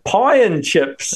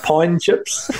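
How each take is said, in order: First: "pie and chips" drawn out slowly, word by word; corrected pronunciation. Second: Imitated Australian "pine chips", "pie and" run together; Australian accent. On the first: Retold or imitated. Associate's wife correcting a misheard offer, "pie and chips" spelled out slowly. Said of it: "the way she said it". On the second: Imitating associate's wife offering food, Australian accent on "pine chips". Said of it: "said it in an Australian accent".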